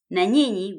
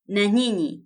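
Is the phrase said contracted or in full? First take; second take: full; full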